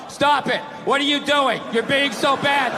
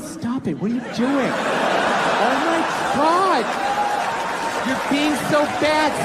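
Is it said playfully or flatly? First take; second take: flatly; playfully. First: It is read out flatly, without feeling. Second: It is said in a playful, flirty way.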